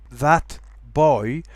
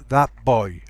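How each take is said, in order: First: Put-on THAT BOY with a clear T, rising; full T. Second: Put-on THAT BOY as thap boy; T becomes P. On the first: Teacher gives full form, clear T in THAT BOY. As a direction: keep the T ending THAT. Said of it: "notice that T". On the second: Teacher shows assimilation, thap for THAT. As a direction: close the lips early at the end of THAT. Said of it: "becomes a P". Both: Shown as a demonstration.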